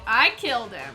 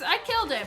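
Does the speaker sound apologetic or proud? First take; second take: proud; apologetic. First: It sounds firm and proud, fully owning it. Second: It sounds sheepish, like an accidental slip. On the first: It was done on purpose. "and yeah, that's right" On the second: It happened by accident.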